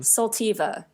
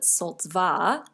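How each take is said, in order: First: An extra vowel separates the t and v. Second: The t runs straight into the v. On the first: This is how outsiders said the name. "inquiring potential residents would call it Soltiva" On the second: This is how insiders said the name. "most of us just called it Soltva, which is incorrect"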